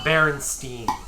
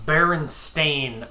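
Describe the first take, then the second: First: The last syllable sounds like 'steen'. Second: The last syllable sounds like 'stain'. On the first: The speaker calls it wrong. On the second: The speaker calls it right. "Correct version is"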